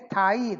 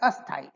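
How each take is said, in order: First: It starts directly with the s consonant cluster. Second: An extra vowel is added before the cluster. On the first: It means stable. The speaker calls it right. "They can't say sthai" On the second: It means unstable. The speaker calls it wrong. "they will say asthai"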